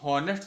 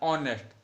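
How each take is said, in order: First: It starts with an audible h sound. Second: It starts directly with a vowel sound. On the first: The speaker calls it wrong. "हम हॉनेस्ट तो बोलते नहीं" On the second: The speaker calls it right. "एच जो है वो हमारा silent रहता है"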